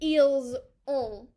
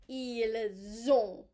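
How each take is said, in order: First: The S sound stays apart from the next word. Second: The S sound joins onto the next word. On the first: The speaker calls it wrong. "it's not just eels on" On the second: The speaker calls it right. "it attaches to the next word. So it's more like ils ont"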